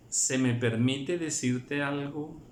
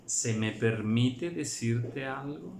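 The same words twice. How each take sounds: First: Pausado y suplicante; humilde. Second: Pregunta lenta y respetuosa; humilde. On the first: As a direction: pedir permiso con humildad. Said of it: "la reverencia y el respeto". (con humildad y reverencia) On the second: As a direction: suplicarlo con reverencia. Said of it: "lo está suplicando". (pausado, pidiendo de favor) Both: Shown as a demonstration.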